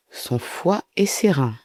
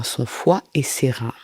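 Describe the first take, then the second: First: "Son foie et ses reins" slowly, each organ set apart; slow, deliberate "Son foie et ses reins"; pointed repetition. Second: Said in the usual way. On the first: Real, not acted. YouTuber flagging Belle's changed story, slow pointed "Son foie et ses reins".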